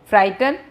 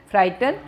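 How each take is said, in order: Both takes have the same delivery.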